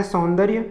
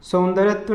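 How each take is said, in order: First: सौंदर्य ending in "rya"; no "tva" after सौंदर्य; correct सौंदर्य. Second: सौंदर्यत्व ending in extra "tva"; wrong सौंदर्यत्व. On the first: Teacher giving correct form, सौंदर्य ending "rya". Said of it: "शुद्ध रूप इसका है". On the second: Teacher showing the error, सौंदर्यत्व with "tva". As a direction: tack "tva" onto सौंदर्यत्व. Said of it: "अशुद्ध रूप है". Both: Shown as a demonstration.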